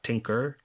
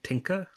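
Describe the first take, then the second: First: The word ends with an audible R sound. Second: The word ends in a vowel without an R. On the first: "not Tinker" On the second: "the way that Brits pronounce R's at the end of words, I thought this was saying Tinka, like T I N K A"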